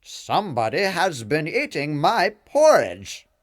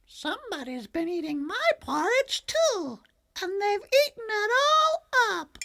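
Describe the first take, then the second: First: Louder, gruff-toned papa bear; big papa bear, louder and indignant. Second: Very high, squeaky little cub; tiny baby bear crying out. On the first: Papa Bear finds his porridge eaten, loud bear voice. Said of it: "said in his Papa Bear voice". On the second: Baby Bear discovers his empty bowl, very high squeaky cub voice. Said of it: "Then Baby Bear cried". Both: A narrator's reading.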